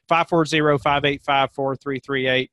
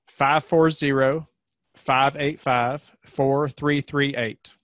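First: The number is said fast. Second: The number is said slowly.

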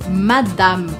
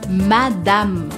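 First: It is pronounced with a French accent. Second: The same.

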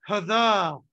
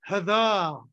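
Both takes have the same delivery.

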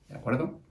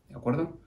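Both takes have the same delivery.

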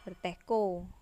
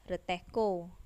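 No difference in how they are said.

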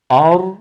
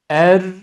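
First: The opening vowel sounds thick and backed. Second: The opening vowel sounds thin and fronted. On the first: "Ra'dan etkilendi, kalınlaştı hemze, hata" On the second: "bu sefer hemzenin inceliği Ra'ya bulaştı, onu inceltti, o da hata"

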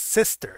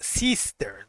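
First: The first vowel is a softer 'eh'. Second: The first vowel is a sharp, marked 'ee'. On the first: The speaker calls it right. "No va a ser una I tan marcada. Es sister" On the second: The speaker calls it wrong. "no vamos a pronunciar sister"

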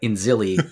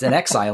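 First: The name is said as 'in-zilli'. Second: The name is said as 'in exile'. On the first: The speaker calls it wrong. "Inzilli doesn't make any sense" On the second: The speaker calls it right. "In Exile makes a lot of sense"

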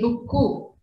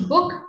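First: The word ends with an added u vowel. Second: The word ends on the consonant k. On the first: The speaker calls it wrong. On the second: The speaker calls it right.

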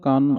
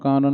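No difference in how they are said.

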